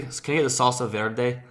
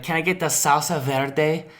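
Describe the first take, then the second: First: Put-on understated Spanish accent on VERDE; unironic Spanish-style accent. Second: Slightly higher put-on Spanish accent on SALSA VERDE. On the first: White diner ordering in earnest, light Spanish accent. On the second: Imagined white diner ordering at a restaurant, ironic Spanish accent. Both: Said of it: "I'm not saying it ironically".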